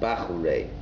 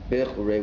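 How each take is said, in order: First: The first vowel is a full open a. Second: The first vowel is a short reduced e. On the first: Young men. The speaker calls it wrong. "not with a patach" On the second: The ones that were chosen. The speaker calls it right. "with a shva"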